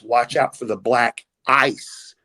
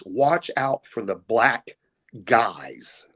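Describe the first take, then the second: First: "black ice" said slowly and clearly; slow clear "black ice", level tone; black ice said plainly. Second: Misheard Canadian phrase. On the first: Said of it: "What they were saying is". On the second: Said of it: "what I heard was". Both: Shown as a demonstration.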